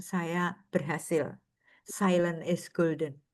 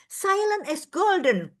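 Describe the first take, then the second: First: Low, slow and soft; lightly voiced aged nun, contented; old nun's quiet pride. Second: High, slow restrained mantra; nun holding her temper. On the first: Aged nun telling former pupils at the reunion, low and slow. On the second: Retold or imitated. Dutch nun stopping herself in anger, high and slow. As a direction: bite back the anger with one phrase.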